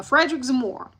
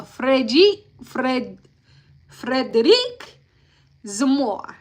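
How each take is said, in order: First: Said in the usual way. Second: Frederic Zamora in a slow, careful French accent. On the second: Shown as a demonstration. Recapping the trial for viewers, saying the witness's name in a French accent. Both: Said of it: "I'm trying my French accent".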